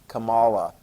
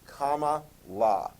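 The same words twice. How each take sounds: First: The name does not begin like comma. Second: The name begins like the word comma. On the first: The speaker calls it wrong. "apparently that's not pronounced right" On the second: The speaker calls it right. "which is a comma"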